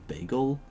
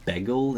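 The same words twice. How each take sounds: First: The word is said with a non-Canadian vowel. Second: The word is said with a Canadian vowel. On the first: "instead of bagel" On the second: "in Canadian you say bagel"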